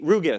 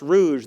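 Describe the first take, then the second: First: The name is pronounced without French sounds. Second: The name is pronounced the French way. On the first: The speaker calls it right. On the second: The speaker calls it wrong.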